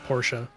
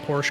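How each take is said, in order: First: The name is pronounced the fancy, refined way. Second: The name is pronounced the everyday, casual way.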